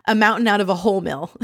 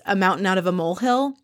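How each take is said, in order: First: "whole mill" said in place of molehill; quick delivery, landing on "whole mill" as two words; botched idiom. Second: Said in the usual way. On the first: Retold or imitated. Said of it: "another epic Ramona, Ramona-ism". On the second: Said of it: "it's another epic Ramona".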